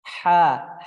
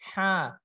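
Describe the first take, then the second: First: The sound comes out without any nasal air. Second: The sound comes out through the nose, nasally. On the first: The speaker calls it right. "tidak ada keluar dari hidung" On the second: The speaker calls it wrong. "Kalau keluar dari hidung"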